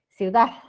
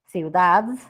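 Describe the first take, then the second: First: It ends with a faint s-like sound. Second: It ends with a carefully pronounced d. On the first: "no es una D, sino ya es como si fuera una S" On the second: "Me estoy esforzando para decir ciudad"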